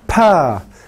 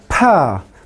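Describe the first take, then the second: The two takes are said the same way.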